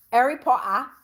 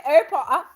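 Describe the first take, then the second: First: A quick attempt at a British accent; British accent try. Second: "Harry Potter" repeated high through laughter; laughing British try. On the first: Trying a British accent for Nadine from the UK. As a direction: toss off "Harry Potter" in a British accent. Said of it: "Let me rock it out, Nadine". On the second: Laughing at her own British accent try. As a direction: say "Harry Potter" again while cracking up. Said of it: "the only thing I said". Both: Shown as a demonstration.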